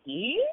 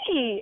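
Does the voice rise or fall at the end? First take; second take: rise; fall. First: It rises at the end like a question. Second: It is an excited squeal, falling at the end.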